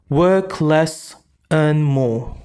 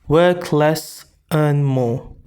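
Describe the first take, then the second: Both takes have the same delivery.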